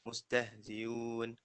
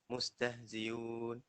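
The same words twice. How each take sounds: Both takes have the same delivery.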